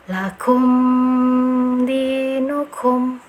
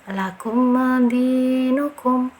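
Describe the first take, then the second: First: The m is held with a nasal hum. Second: The m is released with a bouncing echo. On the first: "ada dengunnya" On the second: "memantulkan huruf mimnya"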